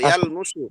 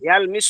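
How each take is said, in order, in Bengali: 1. 'yalm'-এর পরের স্বরধ্বনিটি 'u'। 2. 'yalm'-এর পরের স্বরধ্বনিটি 'i'। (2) "ইয়াল মিসু না তো"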